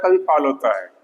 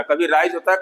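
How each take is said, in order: First: "फॉल होता है" dropping lower to a fall. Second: "राइज होता है" kept up in pitch; rising voice. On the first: Teacher illustrating how the voice falls in speech, pitch dropping. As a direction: let the pitch sink through "फॉल होता है". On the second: Teacher illustrating how the voice rises in speech, lightly raised. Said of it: "हमारी आवाज कभी राइज होता है". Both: Shown as a demonstration.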